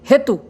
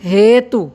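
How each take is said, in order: First: The word is said quickly and hurriedly. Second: The word is said slowly and calmly. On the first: The speaker calls it wrong. "इसको अगर हम तुरंत उच्चारण करेंगे तो शब्द सही ढंग से शब्दावली में फिट नहीं बैठेगा" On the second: The speaker calls it right. "आराम से उच्चारण करेंगे"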